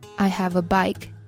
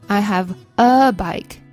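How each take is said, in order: First: The word 'a' is said weakly. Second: The word 'a' is said strongly. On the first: The speaker calls it right. "不对哦" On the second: The speaker calls it wrong. "习惯性的读成像中文那种一个读得很重"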